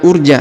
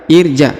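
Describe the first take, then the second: First: The word begins with a u sound. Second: The word begins with an i sound. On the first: The speaker calls it wrong. "bukan urja" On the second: The speaker calls it right. "Irja, bukan urja ya, tapi irja"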